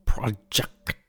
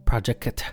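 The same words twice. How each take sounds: First: Fading whispered echo. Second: Said in the usual way. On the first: Acted. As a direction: breathe it like a distant echo. Echoing the show name.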